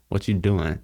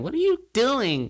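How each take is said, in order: First: It is said in a normal, steady voice. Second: It is said in a high, cracking Mickey Mouse voice.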